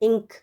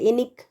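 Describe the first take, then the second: First: The n runs straight into the k. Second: An extra vowel separates the n and k. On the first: The speaker calls it right. "इस तरह से नहीं बोलते ना इंक" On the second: The speaker calls it wrong. "इनिक तो नहीं होता"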